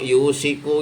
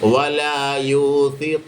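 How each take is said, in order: First: The middle consonant is an sh. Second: The middle consonant is a th. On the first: The speaker calls it wrong. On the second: The speaker calls it right.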